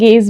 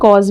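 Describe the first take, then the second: First: The vowel sounds like 'ay'. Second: The vowel sounds like 'aw'. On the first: "दोनों तरह से pronounce कर सकते हैं" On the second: "दोनों तरह से प्रोनाउंस कर सकते हैं"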